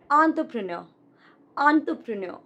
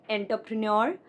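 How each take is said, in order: First: "entrepreneur" as ON-truh-pruh-NUR; correct entrepreneur. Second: "entrepreneur" as EN-ter-pre-nor; mispronounced entrepreneur. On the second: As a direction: open "entrepreneur" on EN, end on NOR. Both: Shown as a demonstration. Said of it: "This one is not".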